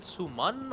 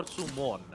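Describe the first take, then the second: First: "Suman" with an "an" ending; pronunciation check. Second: "Sumon" with an "on" ending; pronunciation check. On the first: Caster asking is it Suman, careful pronunciation. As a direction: say "Suman" slowly, second syllable as "man". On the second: Caster offering or Sumon, careful pronunciation. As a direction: say "Sumon" slowly, second syllable as "mon". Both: Shown as a demonstration. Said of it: "I don't know if I'm, um, pronouncing it right".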